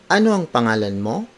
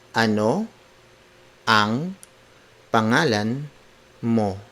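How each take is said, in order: First: The voice rises at the end. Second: The voice stays level at the end. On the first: "when you ask a question, it ends with a rising intonation" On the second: "let's do it word for word"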